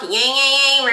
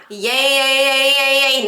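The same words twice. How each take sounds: First: Nasal yay, the wrong kind of twang; over-nasal demo chant; too nasal. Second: Bright twangy yay chant; sung, exaggerated non-nasal twang. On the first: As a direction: push yay through the nose. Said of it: "that's not what we want". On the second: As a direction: chant yay with cutting twang, free of the nose. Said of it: "Now, back to twang". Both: Shown as a demonstration.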